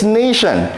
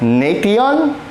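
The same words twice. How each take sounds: First: The middle is said with a 'sh' sound. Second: The middle is sounded out as 'tee-on'. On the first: The speaker calls it right. "it's nation" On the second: The speaker calls it wrong. "Do you pronounce this at nation? No"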